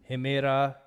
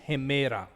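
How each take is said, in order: Both takes have the same delivery.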